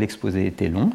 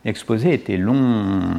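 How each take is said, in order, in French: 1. La dernière voyelle est prononcée à durée normale. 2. La dernière voyelle est très étirée. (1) "C'est une chose de dire l'exposé était long" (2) "vous utilisez la longueur de la voyelle pour indiquer que l'exposé était extrêmement long"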